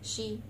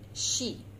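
First: The vowel is said with lips not spread. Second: The vowel is said with lips spread smiling. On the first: The speaker calls it wrong. "Do not say she" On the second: The speaker calls it right. "okay, solid"

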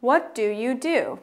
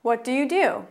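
First: It is said at a slower pace. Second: It is said at a faster pace.

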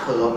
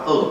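First: The word starts with a sounded consonant. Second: The word starts with a vowel sound. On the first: The speaker calls it wrong. "ถ้าพี่อ่านเพิร์บนะโดนครูฝรั่งตบปากฉีกเลย" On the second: The speaker calls it right. "มันอ่านว่าเอิบ"

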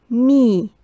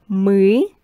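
First: The m is soft and palatalized. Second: The m is hard, not palatalized. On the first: "soft me" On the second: "hard me"

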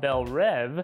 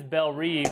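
First: The name is pronounced with French sounds. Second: The name is pronounced with English sounds. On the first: The speaker calls it right. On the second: The speaker calls it wrong.

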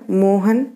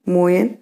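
First: The middle consonant is an h sound. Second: The middle consonant is a y sound. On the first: This is the standard Hindi form. "ह य" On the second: This is the Malvi dialect form. "ह य"

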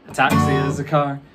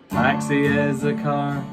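First: It is said fast. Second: It is said at normal volume and speed.

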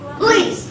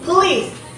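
First: The word has no vowel between the P and the L. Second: The word has a vowel between the P and the L.

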